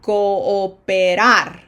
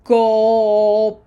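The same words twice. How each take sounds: First: Cooperar slow, the double O separated; slow model take. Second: Cooperar with a small break between o and o; double O stutter. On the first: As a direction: Cooperar drawn out with each o distinct. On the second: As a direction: Cooperar with both o's clearly separate. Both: Shown as a demonstration. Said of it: "little stutter for a double O".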